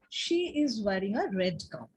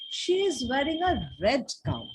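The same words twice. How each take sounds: First: No single word gets special stress. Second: The word red is stressed. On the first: It simply states what she is wearing. "It is a commonplace sentence" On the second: The gown is red and no other colour. "put stress on red"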